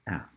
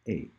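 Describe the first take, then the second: First: It is said as the short vowel in cat. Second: It is said like the letter's name. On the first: The speaker calls it right. "You pronounce it A" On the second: The speaker calls it wrong. "The letter is called A, but you don't pronounce it A"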